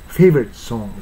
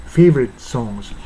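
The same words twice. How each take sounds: The two takes are said the same way.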